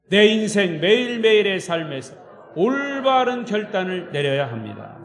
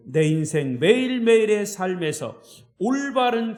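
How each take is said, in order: First: Louder, emphatic group declaration; a confident pledge spoken together; declared in unison. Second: Said in the usual way. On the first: Shown as a demonstration. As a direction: lead the congregation in a strong resolution. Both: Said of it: "시작".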